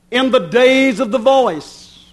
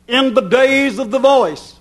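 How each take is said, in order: Both takes have the same delivery.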